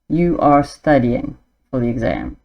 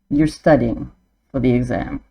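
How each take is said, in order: First: You are is said as two full words. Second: You are is shortened to one syllable. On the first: "the written word as it is" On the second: "how we would say it"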